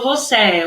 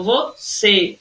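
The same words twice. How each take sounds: First: VOCÊ mispronounced with open é, "vo-SEH"; wrong open E. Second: VOCÊ drawn out in syllables, closed ê. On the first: Teacher showing pupils what not to say, VOCÊ with open é. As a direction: end VOCÊ on a wide open é. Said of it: "eu não falo você". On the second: Teacher showing pupils the right form, slow VOCÊ with closed ê. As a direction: slowly split VO-CÊ, closing the final ê. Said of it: "Acento fechadinho". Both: Shown as a demonstration.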